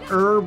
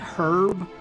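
First: The word begins with a silent H. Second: The word begins with a pronounced H. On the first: "I always thought herb was how you say it" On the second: "the H doesn't have to be silent"

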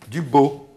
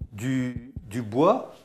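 First: The vowel is pronounced 'o'. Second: The vowel is pronounced 'wa'. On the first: This is the local patois form. "on dit o" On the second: This is the standard French form. "Nous, on ne sait pas dire wa"

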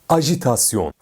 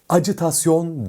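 First: The second consonant is a soft 'zh' sound. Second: The second consonant is a hard 'dj' sound. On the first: The speaker calls it right. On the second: The speaker calls it wrong. "Acitasyon değil"

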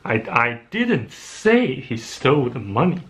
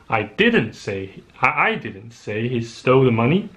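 First: The word 'say' is stressed. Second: The word 'I' is stressed. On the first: The speaker only suggested it. "I only suggested the possibility" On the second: Someone else said it. "Someone else said it"

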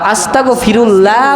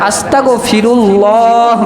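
First: The 'l' in 'Allah' is light and thin. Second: The 'l' in 'Allah' is full and heavy. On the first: The speaker calls it wrong. "বললে তার তিবের খেলাফ হয়ে যাবে" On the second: The speaker calls it right. "বলতে হবে"

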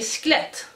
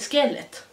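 First: The vowel after sk is left out. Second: The vowel after sk is clearly pronounced. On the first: This is how the speaker herself says it. "jag säger sklett" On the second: This is how her corrector says it should be. "Han bara, det heter skelett"

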